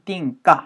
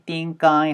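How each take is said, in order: First: The k links into a clipped, short 'I'. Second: The k links into a full 'I' sound. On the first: "I 소리를 좀 짧게 내면 띵까 하면서 까까지만" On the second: "K 사운드랑 I랑 연결되면은 ... 까이까지 소리를 들으시거나"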